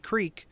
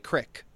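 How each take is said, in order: First: The word is said the general way. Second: The word is said the local Pennsylvania way. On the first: This is how most other people say it. "we don't say creek" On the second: This is how people around here say it. "we say crick"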